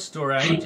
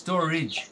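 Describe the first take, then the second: First: The final syllable has a different vowel. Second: The final syllable has a short 'i' vowel. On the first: The speaker calls it wrong. "not storage" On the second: The speaker calls it right. "It takes the I sound. It's storage"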